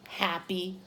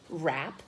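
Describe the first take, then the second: First: It is said with a Portuguese accent. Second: It is said with an English accent. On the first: "if you speak Portuguese, when you see that word, you think happy" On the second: "But in English, we say rap"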